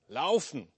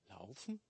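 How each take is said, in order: First: The word is said clearly and firmly. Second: The word is said softly and quietly. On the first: The message is now unmistakable. "Dann war es deutlich" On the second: The message is only a faint impression. "Dann so ziemlich leise"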